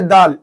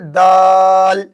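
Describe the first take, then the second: First: The vowel is cut short. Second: The vowel is drawn out long. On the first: The speaker calls it wrong. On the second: The speaker calls it right.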